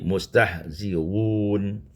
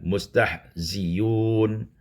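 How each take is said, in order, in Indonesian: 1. Hamzah setelah 'zi' diringankan, tidak sepenuhnya dihentikan. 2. Hamzah diganti dengan bunyi 'y'. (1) "Mentashilkan hamzah" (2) "hamzah ditukar ya dan didhammahkan"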